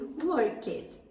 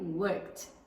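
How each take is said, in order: First: The ending is said just as it is spelled. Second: The ending is said the native English way. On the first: The speaker calls it wrong. "como está escrita do worked, nós pensaríamos worked, mas essa forma está totalmente errada" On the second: The speaker calls it right. "o verbo work no passado fica worked"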